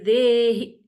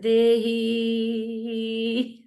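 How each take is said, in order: First: The E vowel is kept short. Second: The E vowel is held long. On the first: The speaker calls it right. "but it's supposed to be Dehi" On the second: The speaker calls it wrong. "some people say, Dehi, long E"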